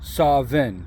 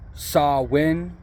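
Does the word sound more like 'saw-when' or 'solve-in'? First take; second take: solve-in; saw-when. First: It sounds like the word 'solving'. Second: It sounds like the words 'saw when'. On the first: "like he was solving a problem" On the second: "like I saw when he did that"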